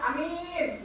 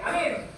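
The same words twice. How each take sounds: First: The first vowel is short, the second long. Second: Both vowels are short. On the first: A prophet or trusted person. "Kalau alifnya pendek, mimnya panjang" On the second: Safe. "alifnya pendek, mimnya pendek"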